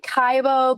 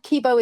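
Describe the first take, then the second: First: The first vowel sounds like 'eye'. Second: The first vowel sounds like 'ee'. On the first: The speaker calls it wrong. "I call it Kaibo" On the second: The speaker calls it right. "Kibo is probably the proper pronunciation"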